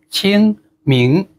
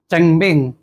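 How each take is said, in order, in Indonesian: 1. Kedua suku kata punya vokal 'i'. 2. Kedua suku kata punya vokal 'e'. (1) "Yang betul adalah Qingming" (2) "Ya sebenarnya bukan cengmeng sih"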